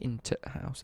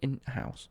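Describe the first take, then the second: First: A separate t sound comes before house. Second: No separate t sound comes before house. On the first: The speaker calls it wrong. "They don't say into house" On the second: The speaker calls it right. "They just miss out the t"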